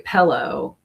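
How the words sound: It is said with a Midwestern mixed-up vowel. "we will say pillow"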